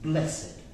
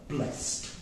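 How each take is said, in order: First: The word is said as two syllables. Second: The word is said as one syllable. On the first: It describes the boy as a quality. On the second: It is the past tense of the verb. "That's the verb, blessed"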